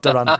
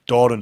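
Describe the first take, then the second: First: The first syllable sounds like 'dew'. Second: The first syllable sounds like 'door'. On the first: The speaker calls it wrong. "not Duran" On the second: The speaker calls it right. "Doran, not Duran"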